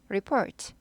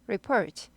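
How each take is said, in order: First: The stress is on the second syllable. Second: The same.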